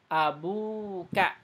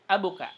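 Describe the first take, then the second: First: The vowel after 'ab' is long. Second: The vowel after 'ab' is short. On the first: The speaker calls it right. "Jadi panjangkan" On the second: The speaker calls it wrong.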